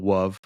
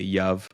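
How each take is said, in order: First: The word begins with a W sound. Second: The word begins with a Y sound. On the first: This is another young child's mispronunciation. "He does a W" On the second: This is one young child's mispronunciation. "He would he would replace the L with a Y"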